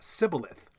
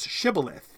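First: The word begins with an s sound. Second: The word begins with an sh sound. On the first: "pronounced it with an S, not a sh" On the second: "the Gileadites pronounced the word shibboleth"

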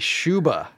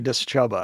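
First: The starting D is silent. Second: The starting D is sounded with a vowel. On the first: "I make the D silent" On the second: "I used to say Dischuba"

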